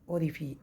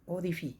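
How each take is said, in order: Both takes have the same delivery.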